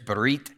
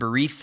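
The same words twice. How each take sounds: First: The word ends with a hard T sound. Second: The word ends with a soft TH sound. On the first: The speaker calls it right. "it's actually a hard T ending there" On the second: The speaker calls it wrong. "I pronounced it berith with a TH"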